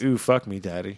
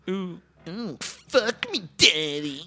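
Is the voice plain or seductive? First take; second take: plain; seductive. First: The voice is plain and everyday. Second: The voice is put-on, breathy and seductive. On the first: "say it in your regular voice" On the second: "That was gross. Say it again"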